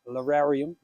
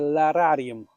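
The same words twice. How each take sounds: First: The word is pronounced in an English way. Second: The word is pronounced in a non-English way.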